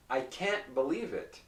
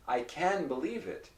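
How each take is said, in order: First: "can't" with a tiny gap before "believe"; can't with a stopped T. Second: "can" joined smoothly to "believe"; can without T. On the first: Teacher repeating for listeners, "can't" with a short stop. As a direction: hold the T of "can't" unreleased, then "believe". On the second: Teacher repeating for listeners, "can" without any stop. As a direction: let "can" run on, no gap. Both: Shown as a demonstration. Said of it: "There's a short pause in between".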